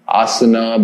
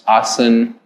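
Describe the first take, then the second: First: The word ends with an added final a vowel. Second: The word ends on a consonant, no final vowel.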